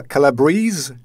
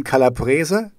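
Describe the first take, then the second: First: Calabrese as kah-la-BREEZ, questioning; English pronunciation attempt. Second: Calabrese as kah-lah-BREH-zeh; Italian-style pronunciation. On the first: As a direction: say Calabrese in three syllables, ending in breez. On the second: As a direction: say Calabrese in four syllables, ending eh-zeh. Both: Shown as a demonstration. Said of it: "How you say it in English?".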